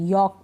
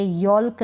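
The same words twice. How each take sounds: First: यॉक with the vowel straight into K; silent L. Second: यॉल्क with a clear L before the K; L wrongly sounded. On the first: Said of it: "यॉक पढ़ेंगे". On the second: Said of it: "यॉल्क नहीं पढ़ेंगे". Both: Shown as a demonstration.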